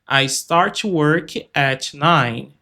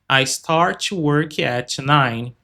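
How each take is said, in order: The two takes are said the same way.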